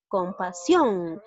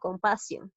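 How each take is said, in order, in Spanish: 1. La fuerza de voz está en la última sílaba. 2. La fuerza de voz está en la sílaba del medio. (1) "también en la última sílaba" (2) "porque no lo estoy llegando a pronunciar tal y como es"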